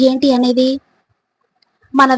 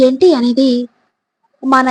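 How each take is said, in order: Both takes have the same delivery.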